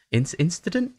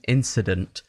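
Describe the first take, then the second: First: Checking how incident is said; "incident?" tried out with a questioning rise; unsure pronunciation check. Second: "Incident." said firmly, falling tune; settled pronunciation. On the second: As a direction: confirm "Incident." with a falling close. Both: Real, not acted.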